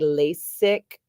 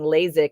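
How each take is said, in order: First: The s is a clear s sound. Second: The s is voiced like a z.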